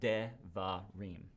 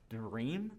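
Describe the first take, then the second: First: A short e sound follows the first consonant. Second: The first consonant has no vowel after it. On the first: The speaker calls it right. "it's fu- functioning as a vowel" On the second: The speaker calls it wrong. "if it's silent, there's no way you can pronounce this"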